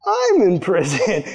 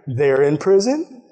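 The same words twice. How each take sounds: First: Slow, drawn-out "I'm", as the parallel clicks; dawning realization. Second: Slow, deliberate weight on "They're", setting up a contrast; dawning comparison. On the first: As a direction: stretch "I'm in prison" in acted wonder. Prisoner realizing he matches them. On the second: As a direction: spell out "They're in prison" slowly, piecing it together. Prisoner comparing them with himself. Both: Retold or imitated.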